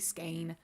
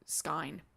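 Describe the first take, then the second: First: The vowel sounds like 'ay'. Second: The vowel sounds like 'eye'. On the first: It follows a German-style reading. "if you go by the pr- German pronunciation, it would be Skane" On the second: It follows a strict German reading. "Technically, it would be Skine if you went by German pronunciation"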